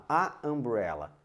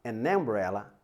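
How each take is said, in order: First: "a umbrella" said with the plain article a, as a wrong example. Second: Said in the usual way. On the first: Shown as a demonstration. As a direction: demonstrate the odd-sounding "a umbrella", a clear a before the vowel. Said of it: "Olha só que estranho". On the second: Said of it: "Vamos tentar colocar aqui no umbrella".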